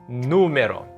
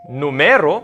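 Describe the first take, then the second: First: The stress is on the first syllable. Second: The stress is on the second syllable. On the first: The speaker calls it right. "It's in the first syllable" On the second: The speaker calls it wrong. "It's not numero"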